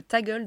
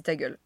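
First: Ta gueule lifted higher and louder as a title; mock-grand title: "Ta gueule"; title emphasis. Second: Said in the usual way. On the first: Shown as a demonstration. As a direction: announce "Ta gueule" like a headline, punched. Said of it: "On va l'intituler le". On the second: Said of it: "m'a dit".

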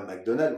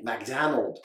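First: McDonald's said the French way, every syllable even; McDonald's with a French accent. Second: McDonald's said American style, mac-DAN-ulds; McDonald's with an American accent. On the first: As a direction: say McDonald's as French speakers do, mac-do-na-do. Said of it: "on dit pas McDonald's". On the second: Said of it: "on dit McDonald's". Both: Shown as a demonstration.

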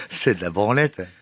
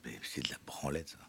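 First: Said out loud and firmly; louder. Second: Whispered scoff; whispering. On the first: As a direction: declare it plainly, louder. Repeats dismissal aloud. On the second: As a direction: breathe it out as a scornful aside. Dismisses therapy under breath. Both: Real, not acted.

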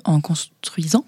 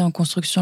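First: "en construisant" breathed out slowly, half-whispered as a fix; quick self-correction. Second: Said in the usual way. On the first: Real, not acted. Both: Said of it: "pardon, du coup".

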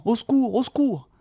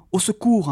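First: High desperate call; lost hobbit calling high for help; crying for help. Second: High imploring call for help; pleading cry. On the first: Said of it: "en criant". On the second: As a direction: beg for help as you run. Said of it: "implorèrent Frodon et Sam". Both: A narrator's reading.

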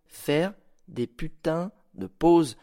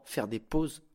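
First: « putains » et « pauses » martelés, très lentement; détacher chaque mot de « Faire des putains de pauses »; insistance lente. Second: Said in the usual way. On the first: Shown as a demonstration. (« Faire des putains de pauses », appuyé et ralenti)

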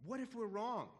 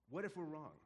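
First: Higher, louder, alarmed question; anxious doubt. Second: Said in the usual way. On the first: Retold or imitated. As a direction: blurt it out in sudden worry. Disciples' doubt voiced twice.

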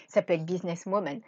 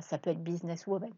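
First: Said in the usual way. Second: Choking on a drink, words strained. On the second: Real, not acted. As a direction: voice catching in throat. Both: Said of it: "pardon, je m'étouffe".

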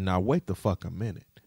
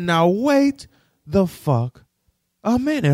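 First: Said in the usual way. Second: High, loud, spaced-out outburst. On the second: Retold or imitated. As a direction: bellow each word in disbelief. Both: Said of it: "I said".

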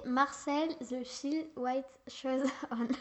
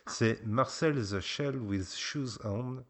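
First: Put-on slow, careful English accent on the title; a kid's best try at an English accent; French child attempting an English accent. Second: Slow, deliberate English accent on the title; a French dad's so-so English accent; showing how the title should sound. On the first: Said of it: "Tu vas nous sortir ton plus bel accent anglais". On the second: Shown as a demonstration. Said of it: "avec mon accent qui est pas beaucoup meilleur".

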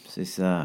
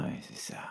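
First: Said in the usual way. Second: Trailing off much softer, lower; distracted murmur; absent-minded. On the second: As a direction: mumble it, mind elsewhere. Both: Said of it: "rétorque Jean-Yves, l'air ailleurs".

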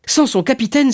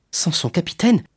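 First: High, elated cry; joyful exclamation. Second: Rising, wondering echo; surprised question. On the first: A narrator's reading. Young sailor realises he may be captain, joyful exclamation. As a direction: cry it out, lit up with joy. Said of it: "s'écria Dantès, les yeux brillants de joie". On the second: Acted. Young sailor hears he may be captain, surprised question. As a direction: repeat it as a tentative question. Dantès echoes the offer, stunned.

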